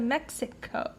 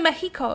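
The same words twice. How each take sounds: First: The x is said as a ks sound. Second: The x is said as an h sound. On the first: This is the English way of saying it. "instead of Mexico" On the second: This is the Spanish way of saying it. "that's why they say Mexico"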